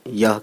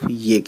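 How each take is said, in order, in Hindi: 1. शब्द 'yah' की तरह बोला जाता है, 'ah' पर खत्म होता है। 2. शब्द 'ye' की तरह बोला जाता है, 'eh' पर खत्म होता है। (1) "हिंदी में ये यह कहते हैं" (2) "उर्दू में सिर्फ ये कहते हैं"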